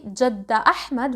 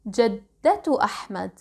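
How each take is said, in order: First: The first word ends in a vowel, no t. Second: The first word ends with a t sound. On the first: The speaker calls it wrong. "we don't say jadda Ahmad" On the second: The speaker calls it right. "we say jaddatu Ahmad"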